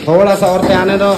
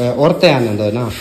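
First: थोड़ा सा औरतें आने दो called higher and louder, थोड़ा hit hard; calling out the fix again, louder and higher; louder insistent repeat. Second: Said in the usual way. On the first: Real, not acted. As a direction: raise the voice and lean on थोड़ा to make the helpers hear.

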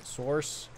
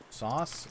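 First: "Source?" with the r sounded, sɔrs; "Source?" corrected with the r, questioning rise. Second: "sauce?" with no r, like the sauce you eat; "sauce?" said sɔs, questioning rise. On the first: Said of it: "source, whatever". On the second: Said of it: "they say sauce". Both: Shown as a demonstration.

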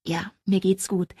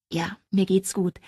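First: Slow, unvoiced whisper of reassurance. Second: Said in the usual way. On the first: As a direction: breathe it out, overwhelmed. Second take, whispered.

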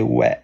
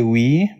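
First: "ouais" with an open "eh" ending; Québécois ouais. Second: "oui" with a clear "ee" ending; standard French oui. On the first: Streamer showing how Québécois say yes, "ouais" as "weh". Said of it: "they say ouais". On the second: Streamer contrasting her own French yes, standard "oui" as "wee". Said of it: "like, I say oui". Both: Shown as a demonstration.

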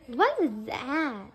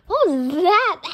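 First: Low, drawn-out question; slow puzzlement. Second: Loud, startled question; startled demand. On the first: Puzzling over a strange noise, slow low question. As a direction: stretch the question out slowly, lower. Same question, slower and lower. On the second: Reacting to a strange noise, loud startled demand. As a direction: blurt it out loudly in alarm. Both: Acted.

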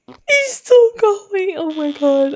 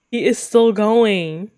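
First: High, slow tearful wail easing down; crying with laughter. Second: Said in the usual way. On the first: Real, not acted. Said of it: "I'm literally crying".

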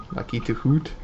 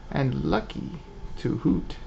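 First: Said in the usual way. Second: Put-on dainty old owl lady. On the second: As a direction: play a sweet old owl shopkeeper. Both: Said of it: "Why does she talk like that?".

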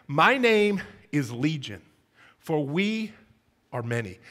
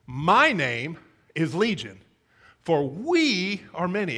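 First: Said in the usual way. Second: Slow, with My and we drawn out and stressed; My and we set apart by slow, weighty emphasis. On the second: Shown as a demonstration. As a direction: lean hard on "My", then on "we". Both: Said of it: "The, the singular and the plural?".

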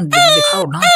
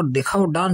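First: "दिखाओ dance" squealed very high and louder, mocking; mocking squeak. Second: Said in the usual way. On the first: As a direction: squeal the words back in mockery.

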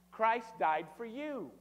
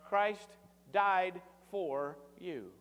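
First: Christ died for you, very slow, each word hit hard; slow stress on Christ. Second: "died" stretched and stressed, very slow; very slow emphasis on died. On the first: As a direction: drag out "Christ died for you" with full weight on "Christ". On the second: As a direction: let "died for you" land slowly. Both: Acted. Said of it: "Did y'all get it?".

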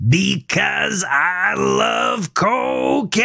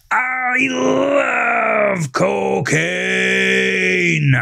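First: High, slow, showy cry with jazz hands; enthusiastic outburst. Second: High, very slow shouted cry, drawn out; louder repeat. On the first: Melvin, high on cocaine, shows off to Gavin, high slow shout. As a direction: belt it out like a manic showman. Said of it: "With jazz hands and enthusiasm". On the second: Melvin shouts again from the car, very slow high cry. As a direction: bellow it even bigger, arms pushing the roof. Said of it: "repeated the statement louder". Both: A narrator's reading.

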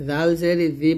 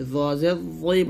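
First: "জাল জের জি" with a thin, light z; thin Zal. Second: "জ জের জই" drawn out with a thick z; heavy Za. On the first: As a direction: keep "জি" light and unrounded. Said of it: "জাল হচ্ছে পাতলা হরফ". ("জি" পাতলা করে) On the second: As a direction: round and stretch "জই", full and heavy. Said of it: "এটা মোটা করে বলবেন". ("জই" মোটা করে) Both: Shown as a demonstration.

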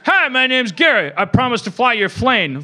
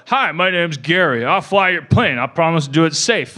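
First: Higher, louder and half laughing pilot intro; mock the pilot, barely holding in laughter; giddy pilot video. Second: Lightly voiced steady pilot intro, a bit louder; a straight, reassuring safety-video pilot; calm airline pilot video. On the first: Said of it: "if during that video, he's like". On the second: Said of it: "have a person, like, on the video screen go".

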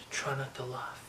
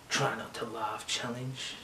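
First: "Try not to laugh" breathed as a soft whisper. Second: Said in the usual way. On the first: Shown as a demonstration. Host whispers the challenge name to himself. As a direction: hush it to yourself. Repeats title then whispers it.

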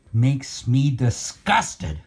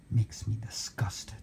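First: Slow, low, voiced "disgusted"; "disgusted" dragged out with emphatic loathing; drawn-out disgust. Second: Sigh, then a barely audible whisper; very soft, defeated whisper; whispered disgust. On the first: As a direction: stretch out "disgusted" slowly and aloud. Repeats the whisper aloud, drawn out. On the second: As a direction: whisper it under your breath in disgust. Disgusted aside after the rant. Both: Real, not acted.

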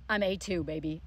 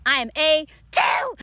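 First: Said in the usual way. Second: Louder, higher boast, each word punched; triumphant shout. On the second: Real, not acted. Student bragging about passing French test, triumphant shout. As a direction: crow it proudly.

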